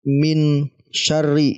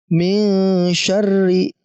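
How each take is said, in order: First: The n is pronounced clearly and fully. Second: The n is hidden with a soft nasal hum. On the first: The speaker calls it wrong. "Jadi bukan dibaca min syarri" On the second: The speaker calls it right. "setelah kita membaca samar nun mati ini"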